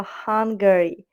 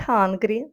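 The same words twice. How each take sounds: First: Hungary as HUN-guh-ree, middle vowel sounded; Hungary with a vowel between g and r; three-syllable Hungary. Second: Hungry as HUN-gree, with no middle vowel; hungry in two beats; two-syllable hungry. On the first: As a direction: slowly spell out Hungary in three beats. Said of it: "а Hungary". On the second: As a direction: say hungry slowly as the word for wanting food, HUN-gree. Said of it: "Не hungry". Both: Shown as a demonstration.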